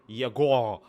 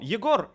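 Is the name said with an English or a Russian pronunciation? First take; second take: English; Russian. First: The name is said with an English pronunciation. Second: The name is said with a Russian pronunciation. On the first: The speaker calls it wrong. "if an English-speaking person would uh, would read that, they would read it as Yegor" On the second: The speaker calls it right. "Yegor is the Russian pronunciation. We have a very hard R"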